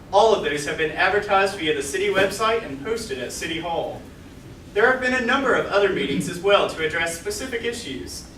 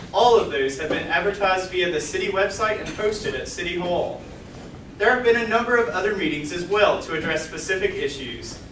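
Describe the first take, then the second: No difference in how they are said.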